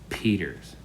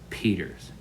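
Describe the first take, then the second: Both takes have the same delivery.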